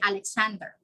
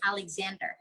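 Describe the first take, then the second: First: The middle x is said without a z sound. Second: The middle x is said with a z sound. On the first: The speaker calls it wrong. "We don't say" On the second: The speaker calls it right. "but we say Alexander"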